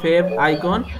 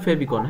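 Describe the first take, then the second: First: It is said as two separate parts. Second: It is said as one joined word. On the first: "ভেঙে বললে" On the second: "একবারে বললে"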